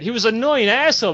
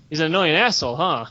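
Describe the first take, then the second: First: Quick, irritated dismissal; indignant recounting. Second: Low, knowing repeat; musing echo. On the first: Guildmate explaining why they kicked him out, indignant. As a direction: rattle it off as an old grievance. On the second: Storyteller weighing what his guildmate just said, musing echo. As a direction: drop it low, mulling it over. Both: Acted.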